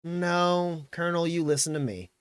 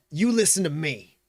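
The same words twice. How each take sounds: First: Relaxed sheriff's contradiction; casual. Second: Raised, insistent command; McGarrett. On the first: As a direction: cut in casually from the sidelines. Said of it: "kinda casually". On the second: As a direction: colonel demanding to be heard. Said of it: "and he goes". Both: Acted.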